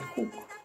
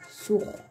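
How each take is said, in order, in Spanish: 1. Se dice como en el quechua chanka y collao. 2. Se dice como en el quechua cajamarca. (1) "tanto en la variedad chanca y collado" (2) "en la variedad del quechua cajamarquino"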